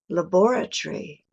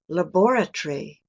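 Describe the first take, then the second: First: It is said in a British accent. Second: The same.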